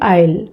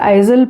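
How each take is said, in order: First: No z sound is said in the middle. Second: A z sound is said in the middle. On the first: The speaker calls it right. "उसका उच्चारण है आइल" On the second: The speaker calls it wrong. "मैं उसे आइजल पढ़ती थी"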